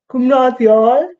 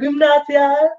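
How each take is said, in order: First: The A vowel is darkened toward O. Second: The A vowel is bright and open.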